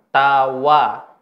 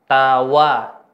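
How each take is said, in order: The two takes are said the same way.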